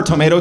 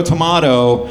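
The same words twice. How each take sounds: First: Said in the usual way. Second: "tomato" with a broad AH in the middle; second syllable of "tomato" rhymes with spa; tomahto pronunciation. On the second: Acted. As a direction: say "tomato" as to-MAH-to. Tomato, tomahto saying, two pronunciations.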